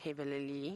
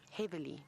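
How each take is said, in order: First: The word is said with extra L sounds. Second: The word is said with normal L sounds. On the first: The speaker calls it wrong. "not heavily. There was too many L's in that word" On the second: The speaker calls it right.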